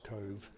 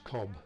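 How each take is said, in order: First: The name ends with a v sound. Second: The name ends with a b sound. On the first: This is how the locals say it. The speaker calls it right. "I was told by the locals, of course, that it was Cove" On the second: This is how the speaker wrongly assumed it was said. The speaker calls it wrong. "what I thought was Cobb"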